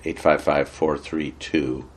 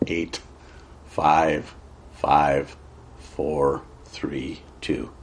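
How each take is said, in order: First: The digits are read at normal speed. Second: The digits are read slowly and deliberately.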